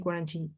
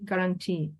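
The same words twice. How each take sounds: First: The word begins with a gw sound. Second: The word begins with a plain g sound. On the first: The speaker calls it wrong. "You don't say guarantee" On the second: The speaker calls it right. "without the U ... you may say guarantee"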